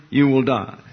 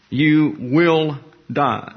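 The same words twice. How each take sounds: First: Said in the usual way. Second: "You will die", slow with each word set apart; emphatic, word by word. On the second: Shown as a demonstration. Stressing the doubled verb's meaning.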